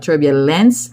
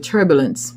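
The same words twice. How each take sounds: First: The middle vowel is a full e sound. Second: The middle vowel is a reduced schwa. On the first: The speaker calls it wrong. "I enunciated in that video um, for emphasis" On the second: The speaker calls it right. "the schwa sound rather than the e sound is what is in that word"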